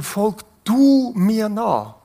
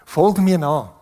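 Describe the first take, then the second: First: Du stretched and leaned on, slow; stress on du. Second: Said in the usual way. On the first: Shown as a demonstration. Preacher to congregation, Jesus calling Peter, slow with du stressed. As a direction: Folg du mir nach with the weight on du, drawn out. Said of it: "es hat eine besondere Betonung da drin". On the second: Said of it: "es hat eine besondere Betonung".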